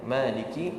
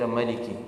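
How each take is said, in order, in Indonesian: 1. Vokal pertama dibaca panjang. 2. Vokal pertama dibaca pendek.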